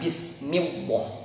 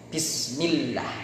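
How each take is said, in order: First: The l sound is heavy and thick. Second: The l sound is light and thin. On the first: The speaker calls it wrong. "jangan dibaca tebal" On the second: The speaker calls it right. "lam jalalahnya dibaca uh, tarkik atau tipis"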